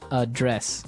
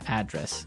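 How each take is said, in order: First: The stress is on the second syllable. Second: The stress is on the first syllable.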